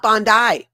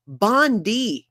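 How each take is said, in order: First: "Bondi" as BON-DYE, loud and higher; wrong pronunciation. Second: "Bondi" as BON-DEE, higher, with a long ee; corrected pronunciation. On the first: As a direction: say "Bondi" to rhyme with "eye", as the mistake. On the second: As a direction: drill "Bondi" ending in a clear DEE. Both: Shown as a demonstration. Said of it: "not Bondi".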